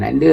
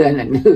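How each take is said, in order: First: Said in the usual way. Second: Anak nda called out louder, rising; calling across the house to the child. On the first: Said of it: "Saya tak panggil dia Kamal". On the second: Shown as a demonstration. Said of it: "saya panggil anak nda".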